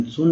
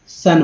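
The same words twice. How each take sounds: First: सुन said with an u vowel, as in "soon"; teacher models the mistake सुन with a clear u; wrong pronunciation. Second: सन said with a short a sound, like "sun"; teacher models सन with a short a vowel, not u; correct pronunciation. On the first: Teacher warns students against saying सुन with an u vowel. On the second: Teacher shows students the right vowel: सन with a short a. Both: Shown as a demonstration. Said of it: "सुन नहीं बोलते हैं".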